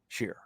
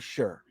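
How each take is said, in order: First: The vowel sounds like the word sheer. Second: The vowel sounds like the word sure. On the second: "Sheer or sure?"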